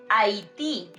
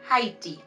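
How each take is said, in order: First: The initial H is silent. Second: The initial H is pronounced. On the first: The speaker calls it right. "we say" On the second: The speaker calls it wrong.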